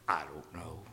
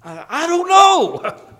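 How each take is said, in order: First: Sheepish whispered reply. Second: High, slow, loud hammed-up whine; mock helpless whine. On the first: Retold or imitated. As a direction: breathe it out like a caught schoolboy. Whispered reply in retold exchange. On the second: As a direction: stretch it out high like a cornered kid. Retold helpless answer.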